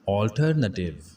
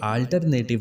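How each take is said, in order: First: The first vowel is a rounded 'aw' sound. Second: The first vowel is a short 'uh' sound. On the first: The speaker calls it right. "सही तलफ़ुज़ है ऑल्टरनेटिव" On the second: The speaker calls it wrong. "ये इसकी गलत pronunciation है"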